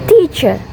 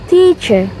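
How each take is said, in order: Both takes have the same delivery.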